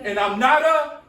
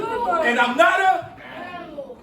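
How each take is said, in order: First: Said in the usual way. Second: Sassy, higher, louder, slow with a laugh; with attitude. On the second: Shown as a demonstration. Teacher leads the chant with laughing attitude. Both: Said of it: "Come on, say it with an attitude".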